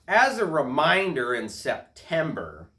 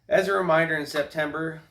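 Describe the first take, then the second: First: It is read in a put-on, bossy tone. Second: It is read in a plain, neutral voice.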